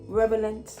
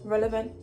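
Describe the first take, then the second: First: The word begins with the sounds r-e-v. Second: The word begins with the sounds r-e-l. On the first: The speaker calls it wrong. "not R E V" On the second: The speaker calls it right. "the L, R E L"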